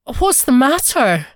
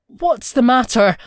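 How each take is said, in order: First: Higher, louder, anxious repeat; more alarmed. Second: Louder, worried first ask; stuttering, alarmed. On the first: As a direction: press the question, more worried. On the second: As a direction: ask in alarm, a bit flustered. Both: A narrator's reading. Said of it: "He stuttered".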